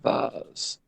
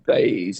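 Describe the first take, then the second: First: It is said with an Australian pronunciation. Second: It is said with an American pronunciation.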